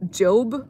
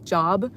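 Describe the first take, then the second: First: It is said the way the biblical name sounds. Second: It is said the way the everyday word sounds. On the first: It names the book of the Bible. "I think that's how you pronounce it" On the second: It means work or employment. "like job"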